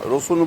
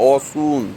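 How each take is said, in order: First: The word begins with an r sound. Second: The word begins with a vowel, no r. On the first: This is the standard form of the word. "রসুন বলবে না" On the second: This is how regional dialect speakers say it. "ওকে বলবে অসুন"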